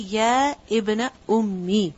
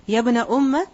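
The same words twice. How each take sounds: First: "أُمِّي" ends in a long i, ummi; "يَا ابْنَ أُمِّي" spelled out with the long i; full form ummi. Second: "أُمَّ" ends on a short a, umma; "يَا ابْنَ أُمَّ" with the clipped ending umma; short form umma. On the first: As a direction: say "أُمِّي" fully as ummi with a doubled m. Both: Shown as a demonstration. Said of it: "is actually".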